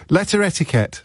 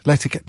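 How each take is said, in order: First: "Letter etiquette" said in full, every syllable; full form. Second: "Letterquette" run together as one word; run-together form. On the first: Presenter demonstrating his coinage to listeners, "Letter etiquette" in full. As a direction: say "Letter etiquette" as two separate words. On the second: Presenter demonstrating his coinage to listeners, "Letterquette" run together. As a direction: blend it quickly into "Letterquette", dropping the middle syllables. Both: Shown as a demonstration. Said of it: "I call it letterquette".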